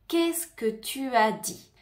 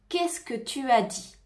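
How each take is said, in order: No difference in how they are said.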